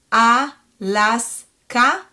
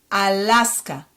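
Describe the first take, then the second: First: Alaska very slowly as A, LAS, KA; "Alaska" in three separate beats; syllable by syllable. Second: Alaska joined as one word, falling; fluent Hebrew "Alaska"; fluent reading. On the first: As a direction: sound out "Alaska" with gaps, rising at the end. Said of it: "read it one more time". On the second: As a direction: say "Alaska" run together with AH vowels. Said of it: "more fluently". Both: Shown as a demonstration.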